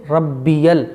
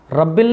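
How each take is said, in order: First: "रब्बियल" in three distinct syllables; correct pronunciation. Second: Quick "रब्बिल" in two syllables; mistaken pronunciation. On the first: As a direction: lengthen "बी" and land clearly on "यल" in "रब्बियल". ("रब्बियल" तीन हिस्सों में साफ़) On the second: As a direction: say "रब्बिल" short, with no "य". ("रब्बिल" जल्दी में, गलत) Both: Shown as a demonstration. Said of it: "रब्बिल नहीं".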